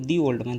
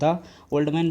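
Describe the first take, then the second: First: 'The' is said with a long 'ee' vowel. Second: 'The' is said with a short 'uh' vowel. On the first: The speaker calls it right. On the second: The speaker calls it wrong.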